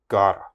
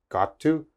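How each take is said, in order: First: It is said fast and reduced. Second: It is said slowly and fully.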